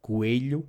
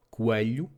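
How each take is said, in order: First: "coelho" with a clear E in the middle, koo-eh-lyoo; "coelho" said as kueʎu, open E sound; alternative pronunciation. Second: "coelho" with a neutral, reduced middle vowel, koo-uh-lyoo; "coelho" said as kuəʎu, unstressed schwa in the middle; first pronunciation. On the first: Teacher showing the alternative that is easier for learners. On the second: Teacher giving the first regional variant, a plain demo. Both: Shown as a demonstration. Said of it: "which can also be pronounced".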